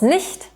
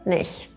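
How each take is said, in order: First: The word ending is clearly pronounced. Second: The word ending is dropped. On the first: "aus Nicht" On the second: "wird Nicht"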